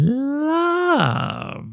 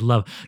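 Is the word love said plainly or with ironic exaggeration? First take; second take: ironic; plain. First: The word is drawn out with ironic exaggeration. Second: The word is said plainly and briefly. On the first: The speaker keeps an ironic distance from genuine emotion. The speaker calls it right. "Gotta be love" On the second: The emotion is named sincerely. The speaker calls it wrong. "You can't just say love"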